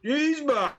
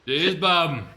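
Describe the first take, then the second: First: High, playful catchphrase; catchphrase quote. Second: Loud, falling catchphrase echo; louder catchphrase echo. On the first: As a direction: toss off a silly catchphrase. Quoting a show catchphrase. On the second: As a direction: bark the catchphrase back. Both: Retold or imitated.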